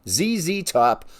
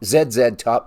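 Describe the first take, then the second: First: The letter Z is said the American way. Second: The letter Z is said the Canadian way.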